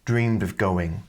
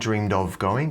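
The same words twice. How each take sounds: First: The word 'of' is weakened to a V sound. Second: The word 'of' is said fully and separately. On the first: The speaker calls it right. "the O is pronounced like a V sound" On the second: The speaker calls it wrong. "it's not of going"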